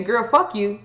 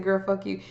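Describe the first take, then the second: First: Put-on "Girl, fuck you." with the weight hammered onto "fuck", falling and final; harsh and hostile. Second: Soft and friendly. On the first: Showing viewers the nasty way, with a hard "fuck". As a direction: spit out "Girl, fuck you." and mean it, leaning on "fuck". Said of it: "It's not the same as saying". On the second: Showing viewers the playful way, softly. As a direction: say "Girl, fuck you." gently, as a joke between friends. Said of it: "See, I said". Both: Shown as a demonstration.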